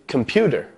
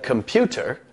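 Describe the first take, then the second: First: The consonant is a d sound. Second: The consonant is a t sound. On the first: "changing the T sound to a D sound" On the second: "rather than computer"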